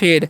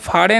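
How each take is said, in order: First: The vowel is an 'ay' sound. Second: The vowel is an open 'ah' sound. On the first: The speaker calls it right. "तो क्या हो गया फेड" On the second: The speaker calls it wrong. "इसे फाड़े नहीं पढ़ना है"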